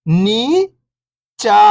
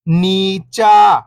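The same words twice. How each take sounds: First: First syllable lifting, pause, second falling. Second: Whole word, level then falling at the end; syllables blended. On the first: Teacher breaking a word down for beginning readers, syllable by syllable. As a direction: sound out each syllable alone, long and separated. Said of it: "एक अक्षर का उच्चारण करके". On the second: Teacher showing beginners the joined word, syllables blended. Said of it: "इनको आपस में लाके पढ़ना है". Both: Shown as a demonstration.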